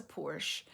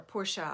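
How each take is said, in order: First: "Porsche" said as one syllable, "porsh"; "Porsche" ending on the sh sound. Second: "Porsche" said as two syllables, "POR-shuh"; "Porsche" ending in an unstressed "shuh". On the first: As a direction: say "Porsche" with no final vowel. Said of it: "I've heard it both ways". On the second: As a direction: give "Porsche" a final uh sound. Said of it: "I don't know how you say it". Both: Shown as a demonstration.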